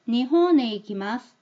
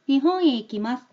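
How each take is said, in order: First: The n is a clear n linked to 'e'. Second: The n glides as a nasal into 'e'. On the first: The speaker calls it wrong. "니혼이라고 내가 얘를 니은 받침이라고 인식을 하고 있기 때문이에요" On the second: The speaker calls it right. "이응도 아니고 니은도 아닌 흘려보내는 발음이구나"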